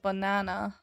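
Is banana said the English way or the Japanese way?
English. The middle syllable is stressed, the others reduced. "instead of banana"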